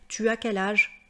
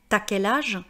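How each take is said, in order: First: 'Tu' is said in full before 'as'. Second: 'Tu' is reduced and merged into 'as'. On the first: It sounds more standard. The speaker calls it right. "moi j'aurais plutôt tendance à dire" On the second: It sounds casual and familiar. The speaker calls it wrong. "c'est du langage familier oral"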